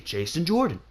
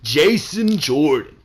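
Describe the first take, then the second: First: The name is said plainly in an ordinary, casual way. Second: The name is said flat and solemn, like an announcement. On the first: It simply names the person. The speaker calls it right. "Just say Jason Jordan" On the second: It presents the person as grand and important. The speaker calls it wrong. "I don't know why the fuck they say it like that"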